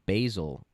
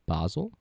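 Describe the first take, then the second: First: The first vowel sounds like 'ay'. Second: The first vowel sounds like 'ah'. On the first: The speaker calls it wrong. "It's not basil" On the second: The speaker calls it right. "It's B A A dash Z L E. That's how I would pronounce that"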